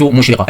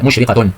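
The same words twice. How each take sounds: First: Said in the usual way. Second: مشرقة ending in a sounded "-tun"; tanween with damma. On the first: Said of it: "فالتاء المربوطة نضع فوقها تنوين بالضم". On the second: Shown as a demonstration. Teacher shows pupils the damma tanween, مشرقة said with "-tun". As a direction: say مشرقة as "mushriqatun", the ending pronounced. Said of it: "نضع فوقها تنوين بالضم".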